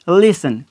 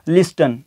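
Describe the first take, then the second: First: The t sound is silent. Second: The t sound is pronounced. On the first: The speaker calls it right. "टी की जो voice है यहाँ पे वो खामोश हो जाएगी" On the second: The speaker calls it wrong. "जो कि गलत प्रोनाउंस है"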